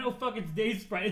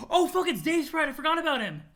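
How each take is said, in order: First: Said in the usual way. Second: High, loud burst of recognition; excited surprise. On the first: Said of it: "I love the line". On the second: Acted. Spotting a forgotten friend, surprised outburst. Character suddenly spots Dave Sprite.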